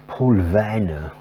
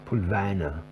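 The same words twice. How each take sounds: First: A slow, hammed-up German accent on the name; a playful, put-on German accent on "Paul Vanna"; mock German accent. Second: Said in the usual way. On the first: Shown as a demonstration. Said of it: "an attempt at a German accent". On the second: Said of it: "Probably doesn't have that accent".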